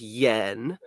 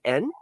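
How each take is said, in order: First: The word begins with a y sound. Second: The word begins directly with a vowel. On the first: This is the English pronunciation. "in English it's pronounced yen" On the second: This is the Japanese pronunciation. "Japanese is it en?"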